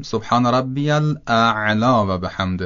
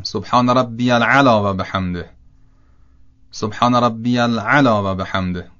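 First: Slow, "الاعلی" with hamza then ع; correct pronunciation. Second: "العلی" said without the alif of al-a'la; wrong pronunciation. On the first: Teacher giving the correct sujud zikr. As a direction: say "الاعلی" as al-a'la, hamza and ع both clear. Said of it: "بعد بگیم". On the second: Teacher imitating people who misread the sujud zikr. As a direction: say "العلی" as al-ala, dropping the hamza. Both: Shown as a demonstration.

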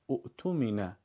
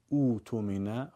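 First: اؤتمن with short u cut by a glottal stop; hamza as written. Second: اوتمن with long smooth "oo" onset; hamza turned long u. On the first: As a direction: say اؤتمن as "u'tumina". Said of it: "اگه خواستیم از اولش بخونیم". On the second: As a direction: say اوتمن as "ootumina". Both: Shown as a demonstration.

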